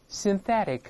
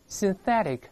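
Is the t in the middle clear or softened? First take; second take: softened; softened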